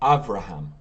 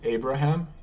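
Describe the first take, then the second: First: The second consonant is a V sound. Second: The second consonant is a B sound. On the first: This is the Hebrew form of the name. "in Hebrew it's" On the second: This is the English form of the name. "in English it's"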